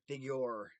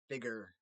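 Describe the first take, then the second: First: Every syllable of the word is clearly enunciated. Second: The word is said fast with sounds dropped. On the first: "instead of figure" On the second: "I say figure"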